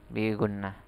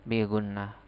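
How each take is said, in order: Both takes have the same delivery.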